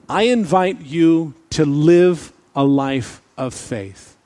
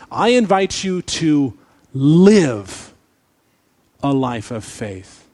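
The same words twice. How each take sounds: First: The sentence is said plainly, without extra force. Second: The sentence is said with strong, forceful emphasis.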